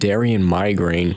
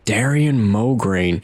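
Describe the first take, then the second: First: The surname's first syllable sounds like 'my'. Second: The surname's first syllable sounds like 'mo'. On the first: The speaker calls it wrong. "I used to call him Darian Migraine" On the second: The speaker calls it right. "the way that they're actually pronounced"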